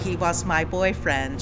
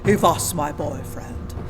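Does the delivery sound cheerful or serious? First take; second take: cheerful; serious. First: It is said in a light, smiley way. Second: It is said in a serious, mean way. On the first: The speaker calls it wrong. "Kira's very smiley" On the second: The speaker calls it right. "you have to be serious and mean"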